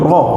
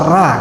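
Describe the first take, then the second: First: The r is heavy, with an o-like vowel. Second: The r is light, with a clear a vowel. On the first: The speaker calls it right. "belum roh gitu" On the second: The speaker calls it wrong. "masih terasa ra"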